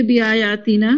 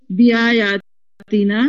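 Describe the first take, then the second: First: Said in the usual way. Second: بیایاتنا drawn out slowly syllable by syllable; slow syllable drill. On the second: Shown as a demonstration. Teacher leading the class, drawing بیایاتنا out slowly. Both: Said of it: "جی بولیے".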